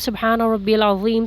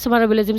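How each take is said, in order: First: It is said slowly and fully. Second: It is said fast and hurried.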